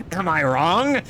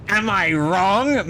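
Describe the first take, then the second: First: Said in the usual way. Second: Slow, louder, rising courtroom plea; courtroom meme. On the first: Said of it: "am I wrong, rising". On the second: Retold or imitated. Streamer quoting the courtroom meme, slow and pleading. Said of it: "standing up in courtroom meme".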